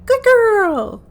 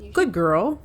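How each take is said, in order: First: It is said in an excited, joyous tone. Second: It is said in a neutral tone.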